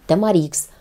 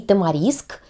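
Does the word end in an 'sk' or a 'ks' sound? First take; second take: ks; sk. First: The word ends with the sounds k then s. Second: The word ends with the sounds s then k. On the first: "И так правильно" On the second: "И так правильно"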